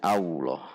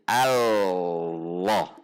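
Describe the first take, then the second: First: The doubled L blurs into a w-like sound. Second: The doubled L is a clear L sound. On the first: The speaker calls it wrong. "ini kesalahan ... Jadi dibacanya Allah. Hati-hati" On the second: The speaker calls it right. "Tempelkan di titik lam, maka itu sudah menunjukkan kita membaca lam tasydid"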